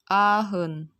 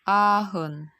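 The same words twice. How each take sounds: No difference in how they are said.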